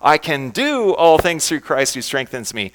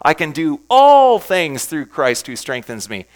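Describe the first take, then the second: First: The word "do" is stressed. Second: The word "all" is stressed.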